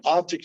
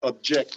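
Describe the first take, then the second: First: "Object" as the noun, OB-ject; "Object" stressed at the front, light ending; stress on first syllable. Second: "object" as the verb, ob-JECT; "object" with a light start and strong ending; stress on second syllable. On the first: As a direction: say "Object" with the weight on OB. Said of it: "object is another good one". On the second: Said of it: "emphasis on the last or the second". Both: Shown as a demonstration.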